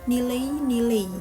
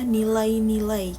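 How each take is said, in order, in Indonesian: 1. 'Ai' di akhir dilafalkan menjadi vokal tunggal biasa. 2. 'Ai' di akhir tetap mempertahankan bunyi diftong penuhnya. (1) "Bapak Prabowo menyebutkan nilai-nilai" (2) "mempertahankan bunyi vokal dan uh, diftong"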